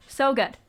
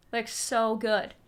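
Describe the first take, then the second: First: SO in "So good" punched louder and higher, falling off; emphatic praise. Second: Said in the usual way. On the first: Real, not acted. Gushing to viewers about Hiatus Kaiyote, stressing "So good". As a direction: lean hard into "So good". Gushing over a favourite band.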